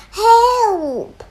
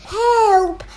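First: Louder, higher cry for help; shouted. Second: Loud high cry for help; shouted. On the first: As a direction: yell it out again. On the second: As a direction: call out in panic. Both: Acted. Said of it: "they all shouted".

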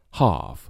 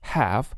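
First: "half" as "hahf", long open vowel; British vowel. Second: "Half" as "haff", said softly; short a as in "cat" on "Half"; American vowel. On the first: Teacher offering a choice, British "hahf". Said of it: "而英式发音会读成half". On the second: Teacher offering a choice, American "haff". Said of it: "美式发音中读作half". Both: Shown as a demonstration.

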